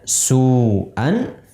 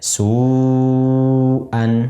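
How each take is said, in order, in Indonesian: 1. Vokal pertama dibaca dengan panjang biasa. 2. Vokal pertama dibaca jauh lebih panjang. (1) "biasanya misalnya su'an" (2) "sekarang jadi lebih panjang"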